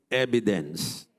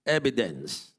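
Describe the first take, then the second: First: Evidence said again lower and falling as the model; repeat evidence. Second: Evidence said clearly as a model to repeat; say the word evidence. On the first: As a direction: give evidence once more for them to echo. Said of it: "Say that word". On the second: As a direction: pronounce evidence slowly for the congregation to echo. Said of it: "Say the word, evidence". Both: Shown as a demonstration.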